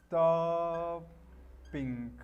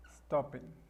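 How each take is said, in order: First: "stopping" with a long held sto, pause, then ping; drawn out in syllables. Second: Said in the usual way. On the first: Shown as a demonstration. Teacher shows the gerund of stop, drawn out. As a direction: split "stopping" slowly into two level syllables. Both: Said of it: "stop quedaría".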